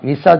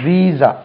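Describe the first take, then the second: First: The first vowel is short, like 'vi'. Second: The first vowel is long, like 'vee'. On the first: The speaker calls it wrong. "விசா சொல்லக்கூடாது" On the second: The speaker calls it right. "இதுக்கு உச்சரிப்பு கவனிங்க"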